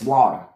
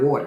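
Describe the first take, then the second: First: "water" said southern-style as "wah-der"; North Carolina pronunciation. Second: Said in the usual way. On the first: Shown as a demonstration. Correcting how water is said down south, "water" as "wah-der". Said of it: "it's water". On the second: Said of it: "'cause it's not water".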